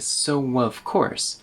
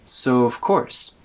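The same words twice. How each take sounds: First: A w sound links 'so' and 'of'. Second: No w sound between 'so' and 'of'. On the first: "with a w in it" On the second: "So we omit the w"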